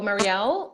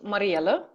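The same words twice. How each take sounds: First: The name is pronounced the English way. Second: The name is pronounced the Dutch way. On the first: "the English speakers either go Marielle" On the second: "the Dutch pronunciation will be Marielle"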